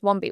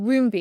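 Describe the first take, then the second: First: The first syllable sounds like 'wom'. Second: The first syllable sounds like 'womb'. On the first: This is how people usually say the name. "Everyone says Wombi, which is fine" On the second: This is the pronunciation the name was built on. "no one pronounces it Woombi"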